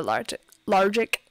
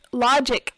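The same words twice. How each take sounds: First: "logic" with a stray r, lar-jik; mispronounced logic. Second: Said in the usual way. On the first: Real, not acted. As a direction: stumble on "logic" as "largic". Trips on the word, corrects it.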